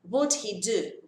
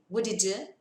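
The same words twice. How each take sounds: First: The h is pronounced, with a small break before it. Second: The h is dropped, and the words run together. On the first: "Eu vou ter que pausar para fazer esses dois sons" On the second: "O som do H some"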